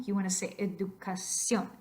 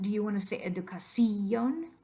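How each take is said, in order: First: Educación with ción as one syllable; educación ending in a single syllable, cion; right educación. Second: Educación with the ción split into two syllables, ci-on; wrong educación. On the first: Teacher gives students the correct one-syllable ending. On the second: Teacher shows the students the wrong syllable split. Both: Shown as a demonstration.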